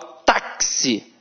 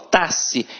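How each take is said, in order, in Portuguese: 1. O x tem som de ks. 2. O x não tem som de ks. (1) "A mesma coisa acontece com a palavra táxi" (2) "Eu não falo taxi"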